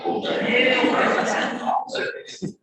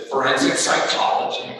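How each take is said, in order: First: High, loud retold amazement; impressed surprise. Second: Loud, ready reply imitating the daughter; quick retold answer. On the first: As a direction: echo it back, mock-astounded and impressed. His impressed reaction to her answer. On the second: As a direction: answer at once and firmly, as her. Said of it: "she was very quick, she said".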